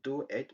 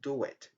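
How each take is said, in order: First: The two words are said separately, without a w. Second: The two words are joined by a w sound. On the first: "Instead of saying" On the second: "we have the linking w"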